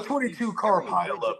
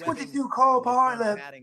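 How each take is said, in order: First: It is said in an American accent. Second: It is said in an English accent. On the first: The news sounds not so bad. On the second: The news sounds grave and credible.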